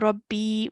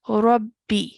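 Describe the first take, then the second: First: The final vowel is held for two counts. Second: The final vowel is held for one count. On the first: The speaker calls it wrong. "We're not going to say Rabbi. We're not stretching for two counts" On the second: The speaker calls it right. "we're only going to pronounce it for one count"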